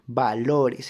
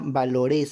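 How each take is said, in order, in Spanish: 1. El acento está en la sílaba del medio. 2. El acento cae fuera de la sílaba del medio. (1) "se pronuncia valores" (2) "ni tampoco se pronuncia valores"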